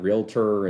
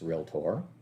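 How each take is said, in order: First: The word is not said like 'real tore'. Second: The word is said like 'real tore'. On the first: The speaker calls it wrong. "it's not realtor" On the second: The speaker calls it right. "your jeans were real tore"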